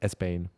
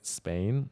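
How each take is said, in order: First: It is said with an e sound before s. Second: It is said plainly, starting directly with s. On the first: "that's how Spanish people say" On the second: "instead of saying Spain"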